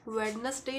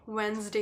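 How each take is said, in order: First: It is said in three syllables, with the d sounded. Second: It is said in two syllables, with the d silent. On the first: The speaker calls it wrong. "नहीं होता" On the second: The speaker calls it right. "होता है"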